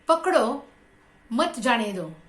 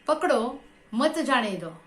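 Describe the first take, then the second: First: There is a pause right after 'pakdo'. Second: The same.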